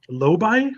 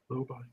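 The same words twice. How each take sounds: First: The voice rises at the end. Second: The voice falls at the end. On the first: The speaker is asking, unsure of the answer. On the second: The speaker is stating the answer.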